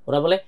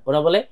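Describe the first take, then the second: The two takes are said the same way.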